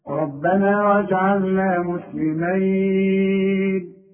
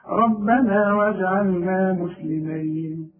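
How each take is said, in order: First: The final syllable is held for four counts. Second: The final syllable is held for two counts. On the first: "أربعة" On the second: "اثنين"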